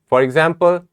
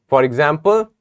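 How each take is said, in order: Both takes have the same delivery.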